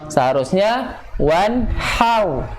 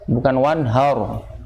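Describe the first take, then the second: First: The 'h' sound is light and thin. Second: The 'h' sound is deep and thick. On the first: The speaker calls it right. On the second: The speaker calls it wrong. "H-nya tebal"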